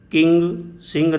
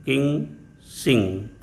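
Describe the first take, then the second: First: "किंग सिंह" with a hard g sounded at the end of each word; wrong hard g. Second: "किंग सिंह" ending on a soft ng, with no g release; silent final g. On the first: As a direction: add an audible g after the ng in "किंग सिंह". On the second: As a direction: let "किंग सिंह" close on the nasal ng alone. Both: Shown as a demonstration. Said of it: "किंग सिंह नहीं".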